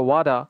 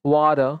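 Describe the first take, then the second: Both takes have the same delivery.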